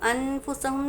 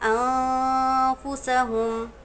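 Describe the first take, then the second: First: The n sound is pronounced clearly and fully. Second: The n sound is hidden as a nasal hum. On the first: The speaker calls it wrong. "नून ज़ाहिर हो रहा है" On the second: The speaker calls it right. "नून की आवाज़ को नाक में छुपाएंगे"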